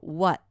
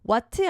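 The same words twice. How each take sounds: First: The final t is held back without being released. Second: The final t is fully released. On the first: The speaker calls it right. "그냥 이것도 받침 느낌으로" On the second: The speaker calls it wrong. "what 안 하고"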